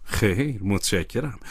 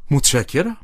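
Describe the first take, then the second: First: Understated, softly smiling thanks; quiet, lower, smiling politeness; with a smile. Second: Mildly astonished thanks, rising at the end; understated, narrated amazement; surprised. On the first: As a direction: decline politely with a small smile. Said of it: "با لبخند گفتم". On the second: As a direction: thank them with a touch of surprise. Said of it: "با شگفتی گفتم". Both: A narrator's reading.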